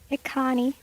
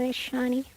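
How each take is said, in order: First: The middle consonant is a k sound. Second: The middle consonant is an sh sound. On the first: The speaker calls it wrong. "I always pronounced this as" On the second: The speaker calls it right. "it's called"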